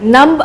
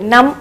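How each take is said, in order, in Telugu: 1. ఈ పదం చివర b ధ్వని వినిపిస్తుంది. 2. ఈ పదం m తో ముగుస్తుంది, b లేదు. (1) "నంబ్ అని అనకూడదు" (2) "నమ్ అనాలి"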